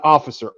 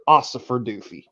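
First: Said in the usual way. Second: Put-on Ossifer with an s in place of the f-sound, drunk-style; Ossifer, joking drunk slur of Officer; Ossifer pronunciation. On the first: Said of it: "no, no, not Officer". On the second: Shown as a demonstration. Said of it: "not Officer, Ossifer Doofy".

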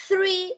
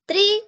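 First: THREE with a puff of cold air on TH; THREE with a clear airy TH. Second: TREE high and drawn out, with a stopped T; TREE begun on a hard T, not TH. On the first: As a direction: blow between tongue and teeth to start THREE. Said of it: "si hay un aire frío". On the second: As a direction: demonstrate TREE with no air on the T. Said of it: "no hay aire". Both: Shown as a demonstration.

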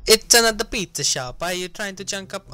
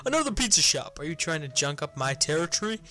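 First: Hammed-up Italian accent, starting high and loud; high-pitched cartoon Italian accent; Mario. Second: Said in the usual way. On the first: Gamer voicing a rival pizza maker, exaggerated Italian accent. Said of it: "I was just doing Mario". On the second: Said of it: "that might be a bit racist".

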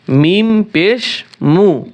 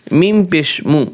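First: মিম পেশ মু stretched very slowly, each syllable held; slow teacher's demo of মিম পেশ মু; slow drawn-out drill. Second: Said in the usual way. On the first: Shown as a demonstration. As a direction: draw মিম out long and clear for the student to copy.

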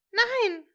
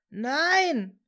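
First: Short, high-pitched scream. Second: Long, loud anguished cry; desperate scream. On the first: Hermine sees Severus hit, high scream. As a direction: cry out high and loud in horror. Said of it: "schrie sie". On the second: Severus sees Hermine buried, desperate drawn-out scream. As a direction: wail it out, drawn-out and raised. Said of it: "schrie Severus verzweifelt". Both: A narrator's reading.

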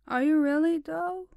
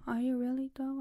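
First: High, loud teasing question; playful teasing. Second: Said in the usual way. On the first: Real, not acted. Teasing her pet, loud and playful. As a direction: tease the pet with a bright rise.

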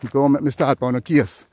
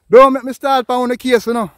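First: Said in the usual way. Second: Loud, fed-up cry; exasperated outburst. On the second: Real, not acted.

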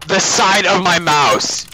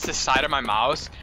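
First: Loud, slow outraged repeat; exasperated shout. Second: Said in the usual way. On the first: Real, not acted. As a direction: stretch it out in disbelief.

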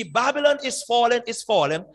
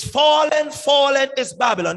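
First: Said in the usual way. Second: "fallen" much higher and louder up front; stress on fallen. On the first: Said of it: "is translation in modern English". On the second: Shown as a demonstration. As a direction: lead hard with "fallen". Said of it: "verb placed at the beginning is emphasizing".

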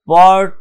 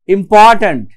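First: পরট্যান্ট broken as "পর", long pause, "ট্যান্ট"; each syllable of পরট্যান্ট set apart; split into syllables. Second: Said in the usual way. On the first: Shown as a demonstration. Teacher counting out syllables, পরট্যান্ট in separate beats. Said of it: "তিনটে syllable আছে". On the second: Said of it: "যদি আমরা important শব্দটা উচ্চারণ করি".

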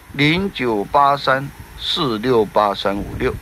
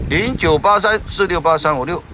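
First: 零九八三四六八三五六 read slowly digit by digit; slow and clear. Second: Said in the usual way. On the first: Shown as a demonstration. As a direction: spell the number out carefully. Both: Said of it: "reads phone number twice".

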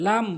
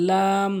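First: লাম short and plain; wrong pronunciation. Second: লাম drawn out evenly; correct pronunciation. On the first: Teacher showing learners the mistake, short wrong লাম. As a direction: say লাম quickly with no held m. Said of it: "ভুল উচ্চারণ". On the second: Teacher modelling for learners, correct long লাম. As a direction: hold the vowel and m of লাম. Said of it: "সঠিক উচ্চারণ হচ্ছে". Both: Shown as a demonstration.

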